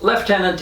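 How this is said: The first syllable sounds like lef. "is the British way to pronounce it"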